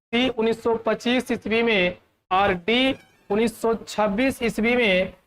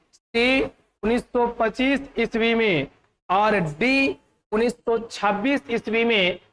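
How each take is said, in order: No difference in how they are said.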